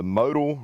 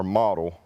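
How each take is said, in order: First: "modal" with a long O, MOH-dul; long-O pronunciation. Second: "model" with an open first vowel, MAH-dul; short-O pronunciation. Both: Shown as a demonstration. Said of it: "not really sure how to pronounce it".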